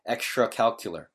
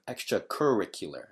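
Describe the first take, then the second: First: The middle syllables are blurred together quickly. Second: The middle syllables are each pronounced clearly. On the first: The speaker calls it wrong. "it almost sounds like saying calcular" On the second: The speaker calls it right. "instead of extracurricular"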